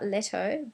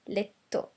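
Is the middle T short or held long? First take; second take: short; long. First: The middle T is short and light. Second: The middle T is held long and stressed. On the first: The speaker calls it wrong. "It's not letto" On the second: The speaker calls it right. "more emphasis on that letter"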